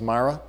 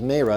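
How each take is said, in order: First: The name is said with a short A vowel. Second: The name is said with a long A vowel. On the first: The speaker calls it wrong. "all of my life I have heard that pronounced Mara" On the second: The speaker calls it right. "It's a long A"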